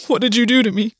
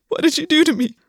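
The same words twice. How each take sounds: First: Words forced out through threatening sobs; understated broken, tearful demand; cracked and broken. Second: High-pitched, wavering plea; high, unsteady. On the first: Gwen to August after being sick on the bathroom floor, cracked and broken. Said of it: "cracked and broken". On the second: Gwen held by August on the bathroom floor, high and unsteady. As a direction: push the voice up high, barely holding together. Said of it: "his voice high, unsteady". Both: A narrator's reading.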